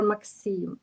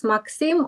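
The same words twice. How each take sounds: First: "Maxim" with a long final vowel, mak-SEEM; second pronunciation option. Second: "Maxim" offered as one of two possible pronunciations, first-syllable stress; first pronunciation option. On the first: Host checking a guest's name, second pronunciation option. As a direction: stretch the end of "Maxim" into SEEM. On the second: Host checking a guest's name, first pronunciation option. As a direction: say "Maxim" as MAK-sim. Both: Shown as a demonstration. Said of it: "Do I say and pronounce correctly?".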